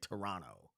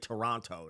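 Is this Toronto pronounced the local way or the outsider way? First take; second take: local; outsider. First: It is pronounced the way locals say the name. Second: It is pronounced the way outsiders say the name. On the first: The speaker calls it right. "they say Toronto" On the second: The speaker calls it wrong. "people from Toronto don't say Toronto"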